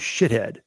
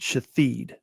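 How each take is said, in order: First: It sounds like the English word 'shithead'. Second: It sounds like 'shatheed', with a long ending vowel. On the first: This is how the spelling looked to the reader. The speaker calls it wrong. "I thought it was shithead" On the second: This is how the name's owner says it. The speaker calls it right. "She pronounced it Shatheed"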